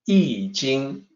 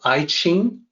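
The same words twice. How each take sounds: First: The second word begins with a 'j' sound. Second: The second word begins with a 'ch' sound. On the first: The speaker calls it right. "It's actually I Ching" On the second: The speaker calls it wrong. "mispronounce I Ching"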